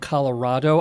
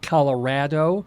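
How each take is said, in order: First: The stressed vowel sounds like the vowel in father. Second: The stressed vowel sounds like the vowel in cat. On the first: The speaker calls it wrong. "rather than ah" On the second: The speaker calls it right. "it is an A rather than an O"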